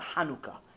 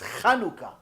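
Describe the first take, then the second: First: It begins with a soft, plain h sound. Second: It begins with a rough, throaty ch sound. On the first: The speaker calls it wrong. "No, it's not Hanukkah" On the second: The speaker calls it right. "It's Chanukah"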